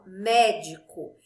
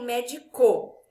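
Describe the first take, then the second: First: The stress falls on the first syllable. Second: The stress falls on a later syllable. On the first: The speaker calls it right. "eu falo médico. Então, o mé é a sílaba mais forte" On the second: The speaker calls it wrong. "eu não falo médico"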